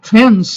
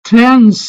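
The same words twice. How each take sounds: No difference in how they are said.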